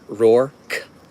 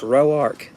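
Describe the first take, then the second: First: The name is said as one syllable. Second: The name is said as two syllables. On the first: This is how people elsewhere often say it. "My name is often pronounced by people Rourke" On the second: This is how the family says it. "if you talk to them, it's Roark. That's how they say it"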